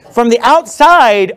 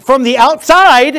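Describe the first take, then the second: First: "from the outside" slowed right down, "outside" pressed hard; stress on OUTSIDE. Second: "From the outside" slow and stressed, higher and louder; emphasized phrase. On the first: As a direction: lean on "outside", slow and deliberate. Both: Real, not acted. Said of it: "let me emphasize that".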